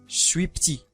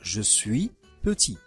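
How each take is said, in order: First: It is clipped, with vowels dropped. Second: It is said fully, every vowel pronounced. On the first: It is casual, familiar speech. The speaker calls it wrong. "Les structures raccourcies et incorrectes" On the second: It is standard speech. The speaker calls it right. "au lieu de dire"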